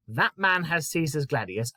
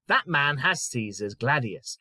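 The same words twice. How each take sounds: First: Said in the usual way. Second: Slow read. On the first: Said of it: "Well, the words". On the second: Shown as a demonstration. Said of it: "So let's take the first one".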